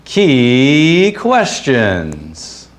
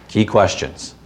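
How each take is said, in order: First: Long drawn-out, higher cheesy announcer call; game-show announcer. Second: Said in the usual way. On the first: Acted. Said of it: "sounded a little bit more like this".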